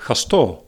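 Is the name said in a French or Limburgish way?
Limburgish. The name is said with Limburgish regional sounds. "that would be the Limburgish pronunciation"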